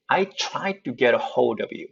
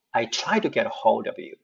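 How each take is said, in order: First: 'tried to' linked with a crisp 'tu'; to with t sound. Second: 'tried to' softened into 'trai-du'; to as d sound. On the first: Teacher giving first option, 'tried to' with t kept. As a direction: keep the t in 'to' after 'tried'. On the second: Teacher giving second option, 'to' said as 'du'. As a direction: turn the t of 'to' into a d. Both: Shown as a demonstration. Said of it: "이 발음을 드로 바꿔서".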